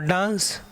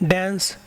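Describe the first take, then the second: First: It is said in a British accent. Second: It is said in an American accent. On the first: "in British" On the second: "in American"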